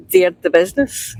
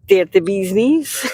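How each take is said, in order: First: "Business" said normally as BIZ-niss; short unstressed ending on "Business"; original phrase. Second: "Bee's Knees" stretched into two long ee words; slow, equal weight on "Bee's" and "Knees"; altered phrase. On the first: Passenger guessing the phrase's origin, "Business" as BIZ-niss. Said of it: "it's probably been sort of like a derivative". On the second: Passenger showing what it became, "Bee's Knees" drawn out. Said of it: "and it turned into". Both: Shown as a demonstration.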